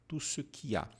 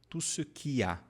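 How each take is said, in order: Both takes have the same delivery.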